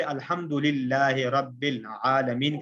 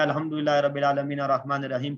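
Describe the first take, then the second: First: Each Arabic word drawn out distinctly; slow, separated recitation. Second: Arabic verse run together quickly; hurried recitation. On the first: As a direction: recite unhurriedly, part by part. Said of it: "الگ الگ سے". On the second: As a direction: rattle through the recitation without separating words. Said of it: "اگر میں اس کو الگ الگ سے". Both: Shown as a demonstration.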